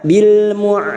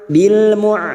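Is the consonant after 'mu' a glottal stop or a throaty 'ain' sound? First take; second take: ain sound; ain sound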